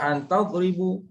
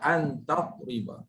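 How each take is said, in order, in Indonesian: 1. Kata terakhir diakhiri dengan vokal u. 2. Kata terakhir diakhiri dengan vokal a. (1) "Jangan baca an tadribu" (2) "Baca dengan ba sebab ada an amin nasab"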